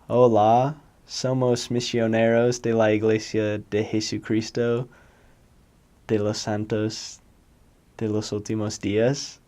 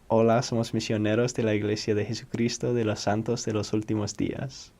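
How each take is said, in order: First: It is spoken with a heavy American English accent. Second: It is spoken with a local Spanish-speaking accent. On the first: "that's kind of what a gringo accent would sound like" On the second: "My best attempt at my accent that I learned"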